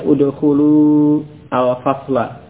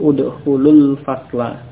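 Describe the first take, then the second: First: The words are said apart with the vowel kept. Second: The words run together with the vowel dropped. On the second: "Kalau bersambung"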